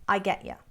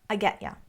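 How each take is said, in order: First: The t sounds like d and 'you' is 'ya'. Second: The t sounds like d and 'you' is 'ya'.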